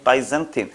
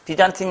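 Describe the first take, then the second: First: The first syllable sounds like 'bye'. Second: The first syllable sounds like 'bee'. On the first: The speaker calls it right. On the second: The speaker calls it wrong. "비잔틴 그럴 줄 알았더니"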